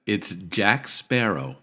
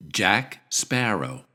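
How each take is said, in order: First: Jack Sparrow said slowly; slow pronunciation demo. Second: Jack Sparrow said slowly again; slow model of Jack Sparrow; slow pronunciation demo. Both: Shown as a demonstration. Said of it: "can anyone tell me who this is".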